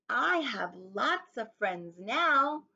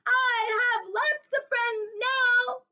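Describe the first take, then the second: First: It is said at normal volume. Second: It is said very loudly.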